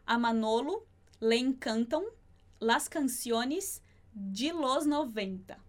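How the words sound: It is said with a Brazilian Portuguese accent.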